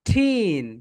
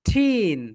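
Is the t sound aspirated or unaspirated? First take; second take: aspirated; aspirated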